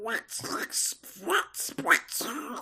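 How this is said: It is said in a Donald Duck voice.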